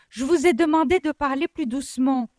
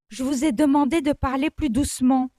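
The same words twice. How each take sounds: First: It is shouted loudly and angrily. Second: It is said curtly, at moderate loudness.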